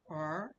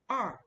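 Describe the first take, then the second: First: The pitch rises through the syllable. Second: The pitch falls sharply through the syllable. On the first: "R is the second tone" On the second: "R is the fourth tone"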